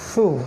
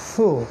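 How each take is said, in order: No difference in how they are said.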